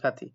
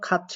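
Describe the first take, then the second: First: The second syllable begins with a t sound. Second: The second syllable begins with a ch sound. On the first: This follows the spelling letter by letter. "খা খা থয় শিকারে থি" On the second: This is how the word is actually pronounced. "But এটার উচ্চারণ খাচ্ছি হচ্ছে"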